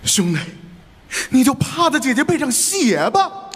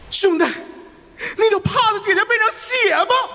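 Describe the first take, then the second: First: The line has some emotion but stays calm. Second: The line is spoken with high, agitated energy. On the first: "我得有情绪。" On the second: "再亢奋一下。"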